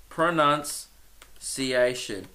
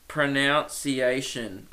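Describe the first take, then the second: First: Very slow, split pronunciation with "nunce" in the middle; pro-NUNCE... ee-ation, pronunciation sounded out softly; careful correction. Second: Slow, low-energy pro-NOUNCE-ee-ation; testing the pronunciation. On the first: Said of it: "Oh, pronounce. Sorry". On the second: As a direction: sound out pronunciation slowly with "nounce" in the middle. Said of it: "I'm gonna look up the pronou". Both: Shown as a demonstration.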